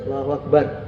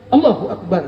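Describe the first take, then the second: First: It is said offhandedly with minimal effort. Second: It is barked sharply like a military command. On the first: The worshipper feels important like a president. "ya cukup aja" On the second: The worshipper feels like a powerful general. "takbir tentara gitu. Siap gerak"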